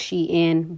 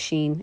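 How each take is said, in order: First: The name is said as two syllables, she-in. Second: The name is said as one syllable, sheen. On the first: This is the brand's own pronunciation. "it's pronounced Shein, but due to the words being put together" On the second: This is a simpler casual pronunciation. "I'm gonna just pronounce it Sheen"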